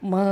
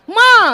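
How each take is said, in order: First: It is called softly at a low pitch. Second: It is called loudly with a raised voice.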